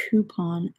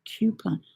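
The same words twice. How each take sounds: First: COUPON as "KOO-pon"; British pronunciation. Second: COUPON as "KYOO-pon"; Florida pronunciation. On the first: Knitter compares accents, COUPON the UK way, KOO-pon. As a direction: say COUPON with a plain oo after the K. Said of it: "we pronounce coupon as". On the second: Knitter compares accents, COUPON the Florida way, KYOO-pon. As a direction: say COUPON with a y-glide after the K. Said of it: "they pronounce it". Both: Shown as a demonstration.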